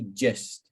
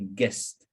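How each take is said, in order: First: It begins with a soft J sound. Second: It begins with a hard G sound. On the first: The speaker calls it right. "But we say gist" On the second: The speaker calls it wrong. "We don't say gist"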